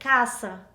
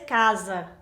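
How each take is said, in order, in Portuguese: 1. O som do meio é um s sibilante. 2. O som do meio é um z com zumbido. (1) "Em espanhol vai ser casa, ... vai ser como S" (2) "em português tem o sonido de Z"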